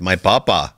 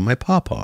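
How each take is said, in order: First: It is said in an Indian accent. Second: It is said in an English accent. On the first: "You can't do it in an Indian accent" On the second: "You can't do it in an English accent"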